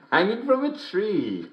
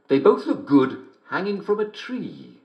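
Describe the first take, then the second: First: Higher, slower, chuckling through the words; laughing. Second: Said in the usual way. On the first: Real, not acted. Host repeating the punchline he finally got, laughing through it. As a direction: savour the line while giggling.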